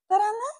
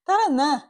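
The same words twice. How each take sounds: First: It is said in a light, playful tone. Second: It is said in a serious, urgent tone.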